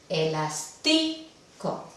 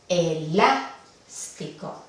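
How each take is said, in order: First: The stress is on the second-to-last syllable. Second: The stress is on the third-to-last syllable. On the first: The speaker calls it wrong. "la penúltima es aquí... No, no es la forma que se pronuncia" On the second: The speaker calls it right. "sí. Aquí va la tilde... ya que no va en la penúltima"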